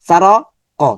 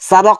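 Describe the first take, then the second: First: The word is split by a break. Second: The word flows as one unbroken unit. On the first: The speaker calls it wrong. "সৌন্দর্যটা নষ্ট" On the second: The speaker calls it right. "একটা শব্দ"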